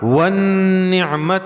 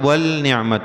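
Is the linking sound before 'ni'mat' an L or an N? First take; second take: N; L. First: The L is dropped and merges into the N. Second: A clear L is said before the N. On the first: The speaker calls it right. "अलिफ लाम बीच में से हटेगा" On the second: The speaker calls it wrong. "वो गलत है"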